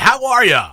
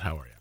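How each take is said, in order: First: It is said in a polished, put-on radio voice. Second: It is said in a relaxed, everyday speaking voice. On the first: "when we get on air, it's more like" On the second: "this is my normal speaking voice"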